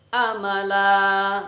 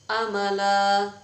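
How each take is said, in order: No difference in how they are said.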